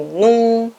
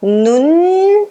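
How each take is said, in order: First: "nun" as a Portuguese nasal vowel, no final N closure; wrong nasal ending. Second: "Nun" stretched out high and rising, ending on a long N; drawn-out model of "Nun"; correct held N. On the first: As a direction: let "nun" end open, tongue off the teeth. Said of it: "nem nun". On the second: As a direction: hold the final N of "Nun" with tongue on teeth. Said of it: "O N vai ficar preso aqui no dente". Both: Shown as a demonstration.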